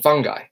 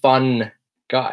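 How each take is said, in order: First: The N is pronounced lightly, as one word. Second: The N is pronounced strongly, like two words. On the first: The speaker calls it right. "I don't actually pronounce the N heavily" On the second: The speaker calls it wrong. "I'm not saying fun guy"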